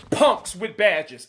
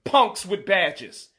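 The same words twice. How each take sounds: First: Punks with badges, slowed, punks hit hard; slow emphasis. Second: Punks with badges, said again slowly, punks stressed; repeated for emphasis. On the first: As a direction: lean on punks with badges, slowly. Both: Real, not acted. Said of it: "let me say it again".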